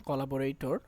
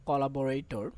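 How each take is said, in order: Both takes have the same delivery.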